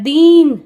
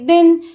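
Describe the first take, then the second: First: The vowel is long. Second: The vowel is short. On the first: The speaker calls it wrong. "दीन नहीं बोलते हैं हम" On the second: The speaker calls it right. "छोटी की मात्रा की sound आ रही है"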